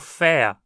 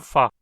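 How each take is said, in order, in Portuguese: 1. A palavra é dita na forma tônica, plena. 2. A palavra é dita na forma átona, reduzida. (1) "Se pronunciada forte" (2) "pronunciada quase sempre átona"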